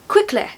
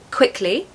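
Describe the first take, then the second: First: The ending is said very softly, barely heard. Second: The ending is said in a modern standard way. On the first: "In R P, it's quickly" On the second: "quickly in modern R P, it's quickly"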